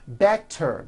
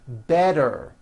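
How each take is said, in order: First: The middle consonant is a clear T sound. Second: The middle consonant is a voiced D sound.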